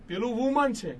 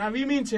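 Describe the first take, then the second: First: Said in the usual way. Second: વિમિન with short i in both syllables, set against વુમન; plural pronunciation. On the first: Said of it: "પેલું વુમન છે અને આ વિમિન છે". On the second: Shown as a demonstration. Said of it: "સાચો ઉચ્ચાર વિમિન બહુવચન". (વિમિન, ટૂંકા ઇ સાથે સાચો ઉચ્ચાર)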